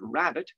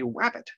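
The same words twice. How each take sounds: First: The word begins with an R sound. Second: The word begins with a W sound. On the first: "trying to say the word rabbit" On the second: "substitute a W for an R"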